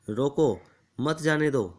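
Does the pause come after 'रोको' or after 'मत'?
after रोको. There is a pause right after 'रोको'. Stop him and do not let him go. The speaker calls it right. "यदि सेनापति अपने संदेश ऐसे लिखते"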